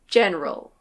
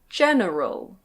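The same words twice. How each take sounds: First: The middle vowel is dropped. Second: The middle vowel is fully pronounced. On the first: "But usually we say" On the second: "This word can be pronounced"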